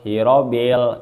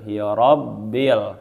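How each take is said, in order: First: The b sound is short and single. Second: The b sound is held long and doubled. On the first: The speaker calls it wrong. "urang dibaca hirobil hirobil. Nah, wayahna kudu dibalikan deui" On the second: The speaker calls it right. "lamun aya huruf anu make tasdid wayahna kudu dibaca"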